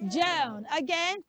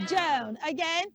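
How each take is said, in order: No difference in how they are said.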